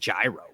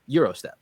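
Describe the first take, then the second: First: The word begins with a 'j' sound. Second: The word begins with a 'y' sound. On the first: This is how locals in Boston say it. "the Boston pronunciation" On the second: This is the proper original pronunciation. "the correct pronunciation is"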